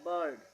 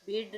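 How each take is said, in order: First: The vowel is an 'er' sound. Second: The vowel is a short 'ih' sound. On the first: The speaker calls it right. "इसको हम पढ़ेंगे बर्ड" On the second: The speaker calls it wrong. "बिर्ड नहीं पढ़ेंगे"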